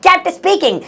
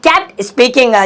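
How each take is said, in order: First: Said in the usual way. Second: "kept speaking" drawn out extremely slowly; very slow dictation; slow teaching repeat. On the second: Shown as a demonstration. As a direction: spell the phrase out for learners. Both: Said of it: "slow repeat for learners".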